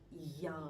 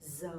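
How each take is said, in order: First: It sounds like a y, southern style. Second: It sounds like a z, northern Hanoi style.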